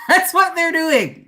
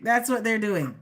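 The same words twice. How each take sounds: First: Laughing, higher and louder. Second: Said in the usual way. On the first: Real, not acted. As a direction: giggle it out with glee. Laughing at exes' reaction.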